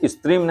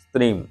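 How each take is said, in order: First: The initial s sound is fully pronounced. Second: The initial s sound is faint and hidden. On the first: The speaker calls it wrong. "उसको स्त्रीम नहीं बोला जाएगा" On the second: The speaker calls it right. "छोटा सा गौण हो गया, वो छुप गया"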